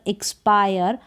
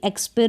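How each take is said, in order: First: The i is said as an 'eye' sound. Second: The i is said as a short 'ee' sound. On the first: The speaker calls it right. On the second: The speaker calls it wrong. "एक्सपिर ना पढ़कर"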